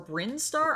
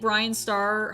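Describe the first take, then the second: First: The first name sounds like one-syllable Brin. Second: The first name sounds like two-syllable Brian. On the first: The speaker calls it right. "hopefully I said it right the second time" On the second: The speaker calls it wrong. "I'm sorry if I said your name correctly or incorrectly"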